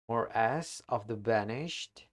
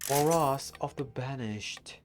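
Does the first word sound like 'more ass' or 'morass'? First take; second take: more ass; morass. First: The first word sounds like two words, 'more ass'. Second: The first word sounds like one word, 'morass'. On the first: The speaker calls it wrong. "I should have looked up how to pronounce that word instead" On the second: The speaker calls it right. "Like a proper English in it"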